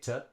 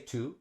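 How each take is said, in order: First: The word to has a reduced schwa vowel. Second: The word to has a full oo vowel. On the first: The speaker calls it right. "say to" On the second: The speaker calls it wrong. "we don't say to"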